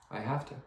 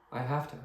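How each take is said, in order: Both takes have the same delivery.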